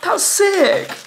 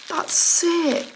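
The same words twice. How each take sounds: First: It is said with a gasp, very excitedly. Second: It is said in a blokey, laddish voice.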